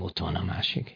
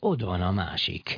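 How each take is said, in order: First: The consonant before 'van' is voiceless, like t. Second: The consonant before 'van' is voiced, like d. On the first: This is the standard form. "És nem ott van a másik" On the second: This is the regional dialect form. "az azt mondja, hogy ott van a másik"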